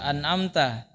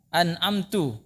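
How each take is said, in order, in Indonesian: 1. Kata ini berakhir dengan vokal a. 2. Kata ini berakhir dengan vokal u. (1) "padahal fathah" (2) "taknya didommakan"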